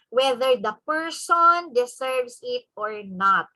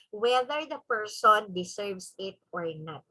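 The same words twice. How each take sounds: First: Slow, weighty stress through "whether the person deserves it or not"; emphatic. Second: Said in the usual way. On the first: Real, not acted. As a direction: lean hard on "person deserves it", taking it slowly. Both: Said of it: "I would like to give emphasis to that".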